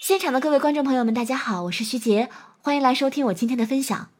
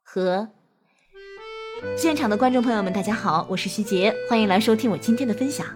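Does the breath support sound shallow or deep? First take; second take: shallow; deep. First: The breath is shallow, high in the chest. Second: The breath is deep, low in the belly.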